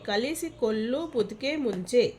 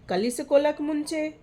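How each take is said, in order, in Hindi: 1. हर अक्षर पूरी तरह और अलग-अलग बोला जाता है। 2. अक्षर छोड़ दिए जाते हैं और शब्द आपस में जुड़ जाते हैं।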